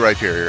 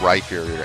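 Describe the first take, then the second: First: The middle consonant is a plain p sound. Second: The middle consonant is an f sound. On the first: The speaker calls it right. "I used to say Rhyperior" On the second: The speaker calls it wrong. "I don't like it. It's wrong. there is no H after that P"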